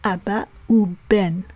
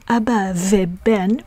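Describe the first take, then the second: First: The word 'and' is pronounced 'u'. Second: The word 'and' is pronounced 've'. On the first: The speaker calls it right. "we say" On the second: The speaker calls it wrong. "instead of saying"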